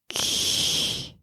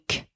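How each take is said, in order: First: The k sound is relaxed and drawn out. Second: The k sound is short and abrupt. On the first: The speaker calls it right. "start with a K and prolong it" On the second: The speaker calls it wrong. "instead of saying k"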